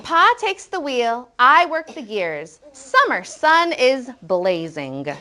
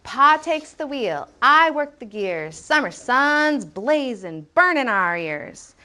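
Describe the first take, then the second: First: "is" separate and "blazing" with a full ing; full forms. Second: Slow, measured beat with clipped "blazin', burnin'" endings; rhythmic poem reading. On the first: Teacher showing what author could have said, full "is blazing". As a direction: read slowly, fully sounding "is" and the ing of "blazing". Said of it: "the author could have said". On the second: Teacher showing the book's rhythm, slow chanting read. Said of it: "the way that we listen to this book". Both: Shown as a demonstration.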